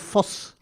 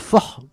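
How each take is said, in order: First: The word ends in a hissing s sound. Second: The word ends in a breathy h sound. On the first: The speaker calls it wrong. "no es fos" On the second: The speaker calls it right. "con la H aspirada"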